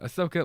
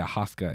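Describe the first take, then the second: First: The name is pronounced like 'Ahsoka'. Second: The name is pronounced like 'Ahaska'. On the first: The speaker calls it right. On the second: The speaker calls it wrong.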